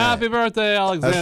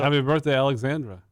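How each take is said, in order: First: It is said with strong emphasis and energy. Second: It is said flatly, without much energy.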